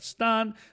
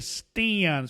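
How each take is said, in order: First: The vowel is not the short a. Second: The vowel is the short a. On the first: The speaker calls it wrong. "no vayan a pronunciar" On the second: The speaker calls it right. "sonido corto de la A"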